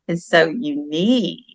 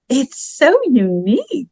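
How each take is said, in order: First: It is said in an insincere, displeased tone. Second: It is said in a sincere, pleasant tone. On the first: The gift is not actually liked. The speaker calls it wrong. "you wouldn't want to say" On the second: The gift is genuinely appreciated. The speaker calls it right. "You could say"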